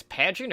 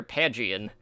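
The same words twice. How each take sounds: First: "Pagian" in a shorter form; first pronunciation guess. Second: "Pagian" with syllables more separated; alternative pronunciation guess. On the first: Unsure host trying the coach's name, "Pagian" said compactly. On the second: Unsure host retrying the coach's name, "Pagian" more drawn out. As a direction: offer "Pagian" more drawn out as the other option. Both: Shown as a demonstration. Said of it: "don't know how to pronounce".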